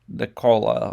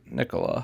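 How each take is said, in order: First: The ending sounds like the word cola. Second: The ending does not sound like cola. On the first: "I always actually pronounce his name as Nicola, like Coca Cola" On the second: "instead of saying uh, Nicola"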